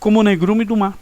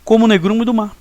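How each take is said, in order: No difference in how they are said.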